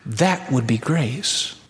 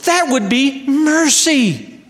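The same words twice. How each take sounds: First: That would be grace said slow and softer, rising at the end; slow soft emphasis. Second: That would be mercy said slow and higher, leaning on that; slow emphasis. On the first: Preacher to congregation, slow hushed landing on grace. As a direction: land grace quietly, slowly. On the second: Preacher to congregation, slow high stress on that. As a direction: spell out mercy slowly and high. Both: Shown as a demonstration.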